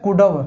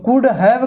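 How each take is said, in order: First: The words merge into a short reduced form. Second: Both words are said fully and separately.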